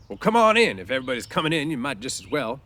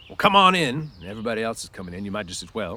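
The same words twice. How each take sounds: First: Louder, higher gruff call, pleased underneath; mock gruff invite. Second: Gruff. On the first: Crooks invites Candy in, gruff to hide his pleasure. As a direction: bark it to hide being pleased. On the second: Acted. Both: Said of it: "conceal his pleasure with anger".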